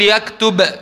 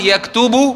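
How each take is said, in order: First: The word ends with no final vowel. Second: The word ends with the vowel u.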